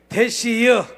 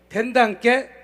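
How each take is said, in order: First: It is said in a Chungcheong dialect. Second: It is said in a Jeolla dialect. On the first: "그 옆 동네 충청도로 조금 올라왔더니 거긴 또 말이 틀리더라고요" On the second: "저 전라도 옆 동네 가니까 거긴 또 말이 틀리더라고요"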